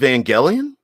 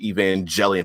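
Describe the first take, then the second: First: The G is said as a hard sound. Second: The G is said as a soft sound. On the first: The speaker calls it right. "note pronounced with a hard G" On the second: The speaker calls it wrong. "I've always pronounced it"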